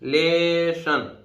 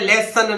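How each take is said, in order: First: The middle consonant is an sh sound. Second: The middle consonant is a plain s sound. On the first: The speaker calls it right. "Double एस से भी एक सा बनना है" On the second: The speaker calls it wrong. "लेसन नहीं है"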